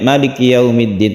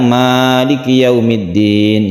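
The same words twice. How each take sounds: First: The first vowel of Maliki is kept short. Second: The first vowel of Maliki is drawn out long. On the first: "Ada juga yang pendek" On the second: "Al-Fatihah itu panjang"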